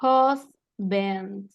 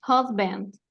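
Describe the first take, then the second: First: Husband split slowly into HOS, pause, bend; syllable-by-syllable pronunciation. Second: Said in the usual way. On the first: Shown as a demonstration. Teacher showing how it is pronounced, syllable by syllable. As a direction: say husband in two separate, stretched syllables. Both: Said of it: "Bueno, se va a pronunciar".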